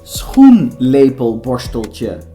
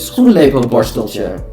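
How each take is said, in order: First: The word is said slowly and carefully. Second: The word is said quickly and naturally. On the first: "And now we say it slowly" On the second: "a normal Dutch person would say"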